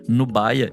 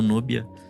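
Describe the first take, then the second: First: The middle vowel sounds like 'eye'. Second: The middle vowel sounds like 'ee'. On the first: The speaker calls it right. "o nome dela se fala, na verdade, Nubaia" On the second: The speaker calls it wrong. "e não Núbia"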